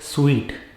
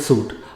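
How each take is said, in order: First: The word sounds like 'sweet'. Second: The word does not sound like 'sweet'. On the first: The speaker calls it right. "Sweet, as though you are eating a sweet" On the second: The speaker calls it wrong. "It is not suit"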